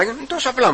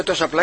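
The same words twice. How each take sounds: First: «Είναι τόσο απλά» pitched high, falling at the end; assured answer. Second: «Τόσο απλά; » asked in the usual register; doubtful question. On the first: Brother assuring the doubting smoker, «Είναι τόσο απλά» high and assured. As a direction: answer «Είναι τόσο απλά» much higher, as imitated reassurance. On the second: Ask «Τόσο απλά. Asks brother, doubting the simple cure. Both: Retold or imitated.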